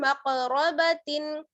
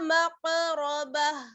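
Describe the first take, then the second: First: The word ends with a nasal tin sound. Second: The word ends with a soft h sound. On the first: The reading continues without stopping. "ता दो ज़ेर तिन" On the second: The reader stops at this word. "ठहरेंगे तो बा को हा से मिला देंगे"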